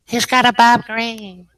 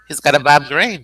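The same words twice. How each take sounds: First: High, louder character echo; put-on high voice. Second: Said in the usual way. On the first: Echoing the Bob Green line, high character voice.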